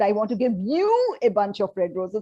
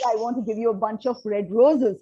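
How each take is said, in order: First: The word "you" carries strong emphasis. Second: The sentence is said without special stress on "you".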